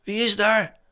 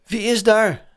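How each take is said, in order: First: Hoge, licht bange tegenroep; trillende roep terug. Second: Hoog, luid en een tikje bang geroepen; trillende roep. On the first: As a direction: roep als een andere stem angstig terug. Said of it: "riep een andere trillende stem terug". (met andere trillende stem terugroepen) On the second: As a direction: roep geschrokken het donker in. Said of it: "riep hij met trillende stem". (met trillende stem roepen) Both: A narrator's reading.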